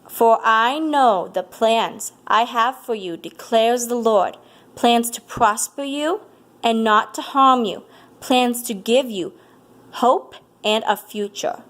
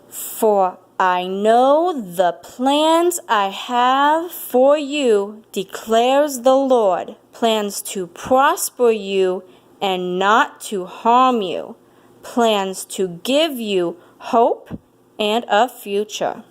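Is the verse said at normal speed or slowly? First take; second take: normal speed; slowly. First: It is said at a normal speed. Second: It is said slowly and deliberately.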